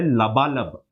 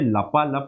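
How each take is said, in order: First: The word is said with 'b' sounds. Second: The word is said with 'p' sounds. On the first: The speaker calls it right. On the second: The speaker calls it wrong.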